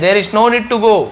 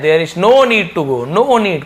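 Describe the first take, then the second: First: "there is no need to go" said slowly, pitch up; slow, lifted teacher demo; slow, higher recap. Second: "there is no need to go" drawn out, rising on "no"; slow, clear teacher demo; slow model reading. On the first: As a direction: repeat it slowly for memory. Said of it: "आपको बस याद करना है". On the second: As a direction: read it slowly for the class. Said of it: "teacher models sentence slowly". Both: Shown as a demonstration.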